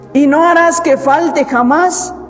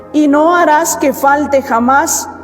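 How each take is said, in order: The two takes are said the same way.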